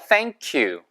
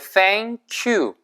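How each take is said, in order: First: It is said fast and run together. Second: It is said slowly and separately. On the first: The speaker calls it right. "빨리 하니까" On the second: The speaker calls it wrong. "Thank you가 아니고"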